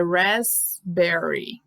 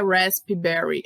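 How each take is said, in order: First: Slow "raspberry", razz-berry without p; silent P. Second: "raspberry" with the p sounded, rasp-ee-berry; wrong pronunciation. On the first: Teacher models it for learners, slow "raspberry" with silent p. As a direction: drop the p and space out "raspberry". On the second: Teacher shows learners the mistake, p sounded in "raspberry". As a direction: add a spoken p in "raspberry". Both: Shown as a demonstration. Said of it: "Você não pronuncia o P".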